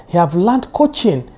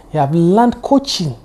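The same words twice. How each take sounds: The two takes are said the same way.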